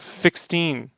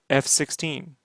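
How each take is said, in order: First: The F is blended into one word. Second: The F is said as a separate letter. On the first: The speaker calls it wrong. "It's not a fixteen" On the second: The speaker calls it right. "it's a F sixteen"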